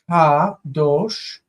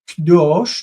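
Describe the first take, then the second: First: The first vowel is kept, giving two syllables. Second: The first vowel is dropped, giving one syllable. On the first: The word stands on its own. "it's normally Kadosh" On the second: The word is bound to the following noun. "notice the syllable in the beginning"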